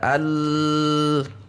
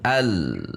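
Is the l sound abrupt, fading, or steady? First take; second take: steady; fading. First: The l is held at constant pressure. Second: The l is pressed, then fades down. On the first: The speaker calls it wrong. "tekanan suara Anda tidak konstan, tidak al" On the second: The speaker calls it right. "di antara keduanya al kemudian turun"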